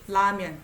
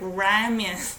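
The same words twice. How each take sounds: First: The first sound is a light L-like tap. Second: The first sound is an English-style R. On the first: The speaker calls it right. "it's more like I relax to the upper teeth" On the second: The speaker calls it wrong. "If you use R, it sounds like ramen. Nobody says ramen. It sounds like a foreigner saying"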